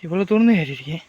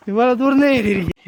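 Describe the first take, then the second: First: Said in the usual way. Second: Raised pitch, falling at the end; high exclamation. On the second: Acted. Climber to companions about how far they have climbed, high exclamation. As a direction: exclaim it high, then let it drop. Repeats the climbing complaint two ways.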